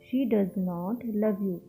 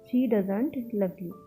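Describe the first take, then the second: First: "Does not" is said as two full words. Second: "Does not" is contracted into "doesn't".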